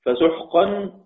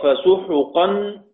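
First: فسحقا said "fasuhqan" with a silent ح; فسحقا with no vowel on the ح; فسحقا read "fasuhqan", sukun on the ح. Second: فسحقا drawn out slowly as "fasuhuqan" with u on the ح; فسحقا stretched, vowel u after the ح; slow فسحقا with damma, "fa-su-hu-qan"; read with damma. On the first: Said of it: "سكون الضم". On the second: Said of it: "بالضم". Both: Shown as a demonstration.

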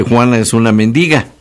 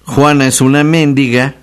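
First: Mendiga stressed on the middle syllable DI. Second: Mendiga said as MÉNdiga, first syllable stressed; stress on MÉN. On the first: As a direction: say men-DI-ga, stress on the second syllable. (mendiga, con la fuerza en la sílaba di) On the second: (mendiga acentuada en la primera sílaba: méndiga) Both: Shown as a demonstration. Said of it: "Así no es lo mismo decir".

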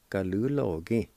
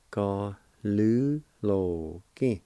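First: Said in the usual way. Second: Slow and careful; slow syllables. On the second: Shown as a demonstration. Teacher slowly modelling the word for students. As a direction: say each syllable slowly and clearly. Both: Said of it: "And it's pronounced like this".

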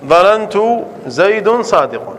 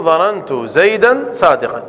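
First: Slow, with زيد and صادق left unmarked as in the wrong form; wrong case endings. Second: Slow, with زيدا and صادقا given a clear -an ending; correct case endings. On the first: Teacher demonstrating the wrong form to students, slow and deliberate. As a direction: say زيد صادق without the accusative -an endings, slowly. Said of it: "يعني لا يجوز أن تقول". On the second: Teacher giving students the correct form, slow and deliberate. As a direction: stress the accusative endings on زيدا صادقا, slowly. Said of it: "يجب أن تقول". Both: Shown as a demonstration.

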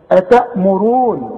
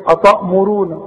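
First: "أتأمرون" slowly, with thin front ta; light ta. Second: "أتأمرون" thickened like "ataa'muroon"; wrong heavy ta. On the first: Teacher corrects pupil's reading, light ta. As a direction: recite "أتأمرون" slow, hamza and ta kept light. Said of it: "التاء بتاعت القرآن دائمًا تاء". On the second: Teacher predicts pupil's error, heavy ta. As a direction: say "أتأمرون" with a heavy back ta, as a mistake. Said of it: "هتقول لي ايه". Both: Shown as a demonstration.

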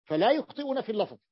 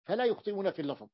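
First: "فلا" raised and pressed, firm fall; emphatic statement. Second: Quicker, softer restatement of "فلا يخطئون في اللفظ"; quick softer echo. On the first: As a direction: land "فلا يخطئون" with weight. (تأكيد قوي على "فلا") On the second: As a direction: toss off the repeat lightly. (تكرار سريع وأخفض) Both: Shown as a demonstration. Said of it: "teacher repeats key point".

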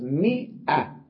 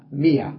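First: Slow مئة, split "mii - 'ah"; hamza sounded. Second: Y in place of the catch in مية; no hamza. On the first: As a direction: draw out مئة with a clear glottal break. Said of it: "نلفظها همزة". (نطق «مئة» ببطء مع إظهار الهمزة) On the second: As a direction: say مية as "miyah". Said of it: "مية بلا همزة ولا ألف". (نطق «مية» بلا همزة) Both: Shown as a demonstration.

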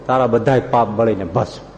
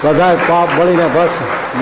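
First: Said in the usual way. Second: "બધાય પાપ બળીને ભસ્મ" said slowly, each word weighted, for the crowd to repeat; slow emphatic call-and-response line. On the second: Shown as a demonstration. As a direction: lead the audience through it word by word. (ધીમે, ભાર દઈને, શ્રોતાઓને બોલાવવા) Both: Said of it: "લ્યો બોલ".

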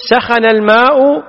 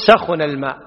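First: "سخن" said sakhana, open a on the kh; "سخن الماء" with fatha on the middle letter; بفتح العين. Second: "سخن" said sakhuna, u on the kh; "سخن الماء" with damma on the middle letter; بضم العين. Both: Shown as a demonstration. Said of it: "يجوز بفتح العين وبضم العين".

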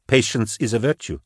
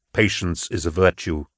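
First: Lightly voiced woman, a little raised; confirming the saying. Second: Low, even, measured voice; completing the saying. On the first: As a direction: echo it lightly in agreement. Kara repeats the saying back. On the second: Acted. Narrator completes recalled saying.

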